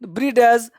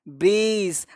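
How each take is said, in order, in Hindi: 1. अंत से पहले एक साफ़ 'd' की ध्वनि बोली जाती है। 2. अंत से पहले 'd' की कोई ध्वनि नहीं बोली जाती। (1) "इसको ब्रीडज नहीं पढ़ना है" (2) "इसको पढ़ना है ब्रीज"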